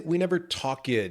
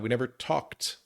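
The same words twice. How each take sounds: First: The ending is a separate extra syllable. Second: The ending is a short T sound. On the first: The speaker calls it wrong. "we don't say" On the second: The speaker calls it right. "It's that T sound"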